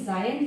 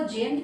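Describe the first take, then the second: First: The first vowel is a gliding 'eye' sound. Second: The first vowel is a short 'eh' sound. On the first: The speaker calls it right. "वैसे तो इसका जायंट pronunciation है" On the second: The speaker calls it wrong. "कोई इसको जेंट कहता है"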